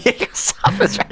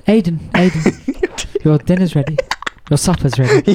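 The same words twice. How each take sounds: First: Breathy whisper, high and soft; whispered echo of the call. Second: Slow sing-song call up the stairs; drawn-out call to come and eat; calling kids to dinner. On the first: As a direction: whisper the call back, amused. Echoing the dinner call. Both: Retold or imitated.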